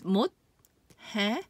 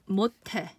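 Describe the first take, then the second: First: The two middle consonants are said separately. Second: The two middle consonants merge into one sound. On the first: "on its own, it's 못해" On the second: "this plus this becomes this. So it becomes 못해"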